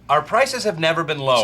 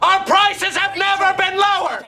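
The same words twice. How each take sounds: First: It is said quietly. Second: It is said loudly.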